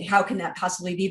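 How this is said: It sounds scornful and dismissive.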